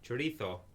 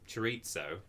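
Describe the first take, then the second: First: It is pronounced in a Spanish way. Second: It is pronounced in an English way. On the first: "that is sort of how a Spanish person would actually say it" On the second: "which is how I say it"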